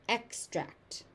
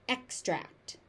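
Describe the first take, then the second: No difference in how they are said.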